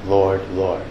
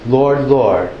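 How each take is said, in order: First: Lower, softer, heartfelt address to the Lord; really knowing. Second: Said in the usual way. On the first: Shown as a demonstration. Believer who truly knows the Lord, low and sincere. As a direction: say it low and soft, meaning it. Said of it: "and really knowing". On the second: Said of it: "There's a difference between saying".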